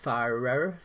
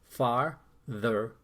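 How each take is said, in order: First: Two r sounds run together with no th. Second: A th sound separates the two r sounds. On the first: The speaker sounds drunk. The speaker calls it wrong. "sounds like I had a few shots of whiskey" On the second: The speaker sounds normal. The speaker calls it right. "It doesn't sound like I'm drunk"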